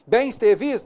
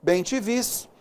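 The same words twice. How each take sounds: First: Bens te vis with both words pluralized as bens and vis, asked with a rise; the wrong form Bens te vis, said as a question; wrong plural. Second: Bem te vis with only vis plural, bem unchanged, said softly; the right form Bem te vis, quietly confirmed; correct plural. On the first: (plural errado bens te vis) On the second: (plural correto bem te vis) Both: Shown as a demonstration. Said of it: "Não".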